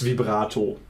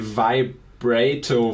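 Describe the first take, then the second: First: The first syllable is said like 'vee'. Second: The first syllable is said like 'vibe'. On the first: "In German, it's vibrato" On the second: "from from vibrator because of the vibe"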